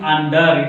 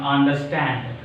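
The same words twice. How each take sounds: First: Weight the start, "under", as the mistaken way; wrong stress on UNDER. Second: "understand" with light UNDER, weight on STAND; stress on STAND. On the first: Teacher showing what we don't pronounce, wrong stress on UNDER. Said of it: "we are not pronouncing under". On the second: Teacher correcting the wrong form, stress on STAND. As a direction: let "understand" land on its last syllable, falling. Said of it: "Stand is the stressed one". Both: Shown as a demonstration.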